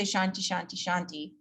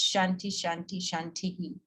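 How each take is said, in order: First: Said in the usual way. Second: Shantihi with the hi echoing after the i; echoed final vowel. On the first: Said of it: "we don't say". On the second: Shown as a demonstration. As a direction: add an echo hi to the last Shanti.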